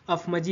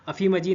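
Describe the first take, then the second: First: The first word ends without a final vowel. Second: The first word ends with an 'ee' vowel. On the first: The speaker calls it right. "अफ मजी होगा" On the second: The speaker calls it wrong. "अफी मजी नहीं"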